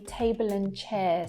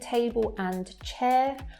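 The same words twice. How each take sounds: First: The word 'and' shrinks to an n sound. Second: The word 'and' is said fully and separately. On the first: "I'm saying table and chair. So it's just that n sound" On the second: "Instead of saying table and chair"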